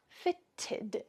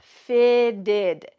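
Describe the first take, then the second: First: The middle T's are sharp, clear T's. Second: The middle T's sound like soft D's.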